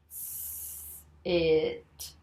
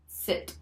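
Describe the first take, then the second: First: Slow blend. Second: 'Sit' as one short word; said together quickly. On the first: Teacher blending along with Jim, slow 'S. It'. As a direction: draw out 'S. It' slowly. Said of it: "together with me slowly". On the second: Teacher finishing the word for Jim, quick 'Sit'. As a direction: say 'Sit' briskly without stretching. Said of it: "say 'em together quickly". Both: Shown as a demonstration.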